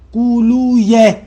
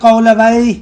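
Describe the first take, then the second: First: The name ends with a 'yeh' sound. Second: The name ends with a 'wayh' sound. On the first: The speaker calls it right. "ऐसे ऐसे पढ़े, दुरुस्त ऐसे है" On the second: The speaker calls it wrong. "तो इनको यूं ना पढ़े"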